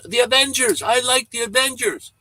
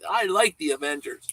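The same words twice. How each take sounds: First: Put-on high-pitched, excited little-kid voice; imitating a kid calling out, high and loud. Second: Lightly voiced little kid, higher; higher kid voice, without the shouting; imitated little kid. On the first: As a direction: pipe up loudly like a kid in a store. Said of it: "this little kid really loud". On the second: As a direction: quote the kid at normal volume. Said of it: "He looks and he said".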